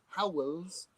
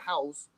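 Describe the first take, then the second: First: The name is said with the L sounds clearly pronounced. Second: The name is said with the L sounds dropped. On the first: "If I went Howells, then that would be different" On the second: "I've got a Portsmouth accent... I'm not pronouncing the letters"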